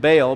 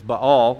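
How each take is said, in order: First: The name is said the common, easy way. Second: The name is said the harder, careful way. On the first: The speaker calls it wrong. "we call him Baal" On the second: The speaker calls it right. "really the proper pronunciation is Baal. It's just a little harder to say"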